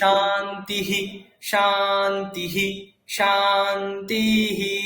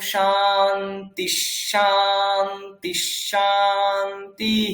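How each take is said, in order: First: Each word ends separately with an audible 'hi'. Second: The words run together smoothly without any break. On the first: Each word is read exactly as written, breaking the rhythm. "ভেঙে বলেন, তখন ওই ইহি ইহিটা শুনতে পাবেন" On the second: The sandhi is applied so the rhythm stays intact. "সন্ধি করে করে কি বলি"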